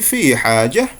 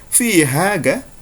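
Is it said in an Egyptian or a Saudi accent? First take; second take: Saudi; Egyptian. First: It is said in a Saudi accent. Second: It is said in an Egyptian accent.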